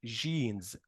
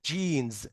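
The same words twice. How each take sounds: First: جينز opening on soft "zh", no "d"; soft French-style "zh" in جينز; wrong jeans. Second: جينز opening on hard English "j"; correct jeans. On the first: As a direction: mispronounce جينز as "zheenz". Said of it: "مش جينز". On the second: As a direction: say جينز as "d-zheenz". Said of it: "المفروض انا بنطقها". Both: Shown as a demonstration.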